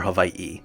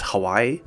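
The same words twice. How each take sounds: First: A break comes before the final vowel. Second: The final vowel follows with no break. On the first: The speaker calls it right. "if you want to pronounce it natively" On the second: The speaker calls it wrong. "it's not pronounced Hawaii"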